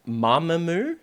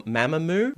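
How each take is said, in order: First: Mamamoo starting with an open "mah"; first pronunciation. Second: Mamamoo starting with a short "ma" as in mat; alternative pronunciation. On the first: Host trying out band's pronunciation, Mamamoo as MAH-muh-moo. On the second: Host offering other pronunciation, Mamamoo as MAM-uh-moo. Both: Shown as a demonstration. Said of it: "the pronunciation is Mamamoo or Mamamoo".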